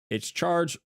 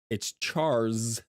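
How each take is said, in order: First: The name ends with a 'j' sound. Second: The name ends with an 's' sound. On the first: The speaker calls it wrong. "not Charge" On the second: The speaker calls it right.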